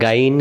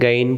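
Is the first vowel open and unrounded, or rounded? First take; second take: open; open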